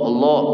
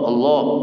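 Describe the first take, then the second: The two takes are said the same way.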